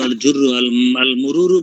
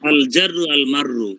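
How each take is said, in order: First: The words are said with a 'u' vowel. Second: The words are said with an 'a' vowel. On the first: This is how the teacher said it. "আমি তো আল জুররু আল আল মুরুরু বলছেন।" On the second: This is how the book spells it. "দুইটা শব্দ আমার কিতাবে আরেক রকম।"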